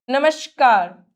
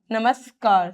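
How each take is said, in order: First: नमस्कार with sh for s; hushing sh inside नमस्कार; sh error. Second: नमस्कार with a clean s; plain s inside नमस्कार; dental s. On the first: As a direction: say नमस्कार wrongly as "namashkaar". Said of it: "श की अशुद्धियां". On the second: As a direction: say नमस्कार as "namaskaar". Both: Shown as a demonstration.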